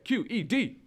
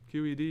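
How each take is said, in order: First: It is said loudly with guttural energy. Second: It is said flatly with little energy. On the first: The speaker calls it right. "How's that? Better? ... get a little guttural there" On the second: The speaker calls it wrong. "You sound like you were lacking energy"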